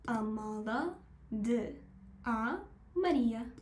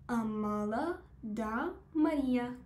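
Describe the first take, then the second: First: De and a are said as two separate words. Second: De and a merge into one word, da. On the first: The speaker calls it wrong. "من یه جایی رو اشتباه گفتم" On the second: The speaker calls it right. "بعد بگم Amada da Maria"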